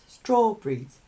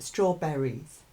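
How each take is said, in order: First: The word is said with two syllables. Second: The word is said with three syllables. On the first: "So two syllables" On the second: "Some people pronounce it strawberries"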